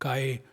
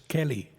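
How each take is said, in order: First: The double L is said as a Y sound. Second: The double L is said as an L sound. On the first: The speaker calls it right. "it's Y, and it's a Spanish word. It should be spelled and pronounced the right way" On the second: The speaker calls it wrong. "the staff says it's Kelly"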